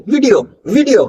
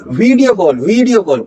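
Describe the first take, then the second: First: "वीडियो" with a short "vi" after a V; short vowel. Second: "वीडियो call" with a stretched "vee"; wrong long vowel. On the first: Teacher modelling the right word, short "vi" in "वीडियो". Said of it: "हल्का सा short". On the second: Teacher showing what to avoid, long "vee" in "वीडियो". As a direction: lengthen the first vowel of "वीडियो". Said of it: "वीडियो नहीं". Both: Shown as a demonstration.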